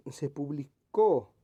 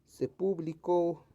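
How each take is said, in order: First: Publicó with CÓ loud and stretched; publicó stressed on its final CÓ; stress on final syllable. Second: Publicó misread slowly as PÚblico, stress on first syllable; publicó said like the noun PÚblico; misplaced stress. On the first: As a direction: slowly punch the last syllable of publicó. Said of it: "que esté correctamente escrita". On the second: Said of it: "aquí como que no". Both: Shown as a demonstration.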